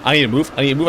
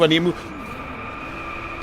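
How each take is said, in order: First: Said in the usual way. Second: Slow, voiceless whisper; slow urgent whisper to yourself; breathless whisper. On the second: Real, not acted. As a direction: breathe it out under your breath. Racing, urgent self-talk.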